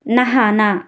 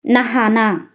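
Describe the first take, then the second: No difference in how they are said.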